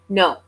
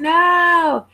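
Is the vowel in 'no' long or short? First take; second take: short; long. First: The vowel is short and clipped. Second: The vowel is drawn out long. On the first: "they just say no" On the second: "I would elongate that O for no"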